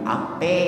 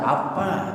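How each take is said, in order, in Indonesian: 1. Vokal akhir adalah bunyi 'e'. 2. Kedua vokal adalah bunyi 'a' yang terbuka. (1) "Pakai native language Betawi" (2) "Pakai native language standar"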